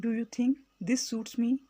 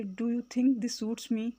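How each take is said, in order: First: Said in the usual way. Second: Slow question Do you think this suits me; slow teacher demo; slow, careful model. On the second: Shown as a demonstration. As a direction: say it slowly for learners. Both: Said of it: "اس طرح سے بولیں گے".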